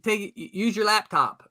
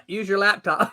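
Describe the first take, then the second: First: Said in the usual way. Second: Calling out. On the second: Real, not acted. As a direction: call it out so he hears. Calling out to unheard friend.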